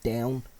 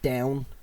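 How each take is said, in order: No difference in how they are said.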